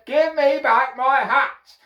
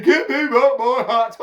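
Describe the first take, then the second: First: High, loud, slow demand; angry demand. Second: High, loud monkey squawk; mimicking monkeys. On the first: Hatter pointing both fingers at monkeys, angry demand. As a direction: shout it slowly at the thieves. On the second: Monkeys pointing back at the man, mocking mimicry. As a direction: parrot the demand as a monkey. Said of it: "they're copying me". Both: A narrator's reading.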